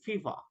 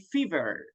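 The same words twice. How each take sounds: First: It is said in a British accent, r dropped. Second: It is said in an American accent, r pronounced. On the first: "this is British English. That's why they don't pronounce very well a letter R. So they say fever" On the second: "But in our in American English, we can say fever"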